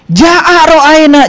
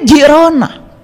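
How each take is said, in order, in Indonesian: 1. Setiap suku kata diucapkan dengan jelas dan utuh. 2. Suku-suku katanya disambung menjadi satu kata.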